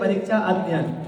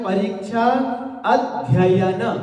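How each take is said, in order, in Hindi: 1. एक 'ya' की ध्वनि छोड़ दी जाती है। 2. 'ya' की ध्वनि दो बार बोली जाती है। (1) "एक या को अपन खा जाते थे" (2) "हिज्ज करते हैं तो पता चलता है"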